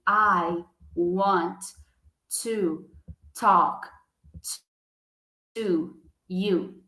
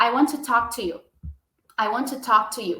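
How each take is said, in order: First: Long pauses between "I want", "to", "talk", "to you"; word by word. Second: "I want to talk to you" run together, one T; linked sounds. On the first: Teacher showing the wrong paused way, word by word. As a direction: chop the sentence into single words. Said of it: "diferente de eu chegar e falar assim". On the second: Teacher modelling native speed, linked. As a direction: say it fast and joined. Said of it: "Então, vai ficar". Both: Shown as a demonstration.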